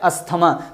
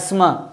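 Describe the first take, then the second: First: It is said with the regional Indian pronunciation. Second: It is said with the standard pronunciation. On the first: "India Pakistan और ये सब इलाकों में इसको अस्थमा बोलते हैं" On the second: "असल जो प्रोनाउंसिएशन है उसका एस्मा"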